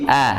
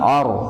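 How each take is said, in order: First: The vowel sounds light and thin. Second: The vowel sounds heavy and deep. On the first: The speaker calls it right. "huruf a-nya hamzah ini dibaca tipis" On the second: The speaker calls it wrong. "jangan or, or, nah, itu ke bawah"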